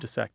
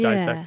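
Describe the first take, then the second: First: The first syllable has a short 'ih' vowel. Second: The first syllable has a long 'eye' vowel. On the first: This is the older pronunciation a teacher insisted on. "it's got two S's in it. It's pronounced dissect" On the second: This is the pronunciation most people use now. "that one has definitely flipped. So it's dissect"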